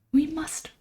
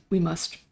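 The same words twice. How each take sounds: First: "We must" jumped up high, playfully grand; mock solemn. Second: Said in the usual way. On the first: Mock solemn echo of own words.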